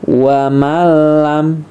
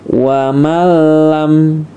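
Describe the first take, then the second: No difference in how they are said.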